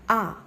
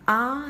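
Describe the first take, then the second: First: Short "ah" as in cut, mouth half open; half-open vowel. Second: Drawn-out "ah" with the mouth wide open; long open vowel. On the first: Teacher demonstrating a half-open vowel, short "ah" as in cut. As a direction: say "ah" short, tongue slightly raised. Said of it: "An example for a half open vowel". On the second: Teacher demonstrating the long open vowel for students, drawn-out "ah". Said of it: "is the long". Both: Shown as a demonstration.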